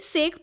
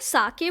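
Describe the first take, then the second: First: One syllable, ending in a 'k' sound. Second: Two syllables, ending in an 'eh' vowel. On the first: This is the common everyday reading. "हम लोग basically सेक pronounce करते हैं" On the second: This is the Japanese name of the drink. "इसको साके बोला जाता है"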